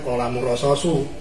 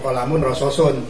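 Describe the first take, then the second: First: The last word ends in a plain u. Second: The last word ends in un. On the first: "dibacanya kolamun rososu" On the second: "atau kolamun rososun"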